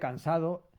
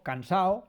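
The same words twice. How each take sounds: First: The word is said in a careful, full way. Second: The word is said in a casual, reduced way. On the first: This is the standard written form. "en lugar de cansado" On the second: This is how people really talk. "yo digo cuando hablo, digo cansado"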